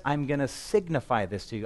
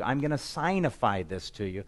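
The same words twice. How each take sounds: First: Said in the usual way. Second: "signify" pronounced SIGN-ih-fy; "signify" as SIGN-ify. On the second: Shown as a demonstration. Splits the word as sign-ify.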